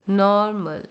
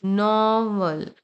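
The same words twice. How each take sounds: First: नॉर्मल with a sounded R, 'nor-mul'; long first syllable in नॉर्मल, closing on R; model repeat. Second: नॉर्मल drawn out as 'naw-mul', R dropped; very slow नॉर्मल with a long 'naw'; slow model pronunciation. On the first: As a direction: say नॉर्मल in two careful beats with an R. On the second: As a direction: stretch the first vowel of नॉर्मल without an R. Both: Shown as a demonstration. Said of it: "ये pronounce करने में मदद करेगा".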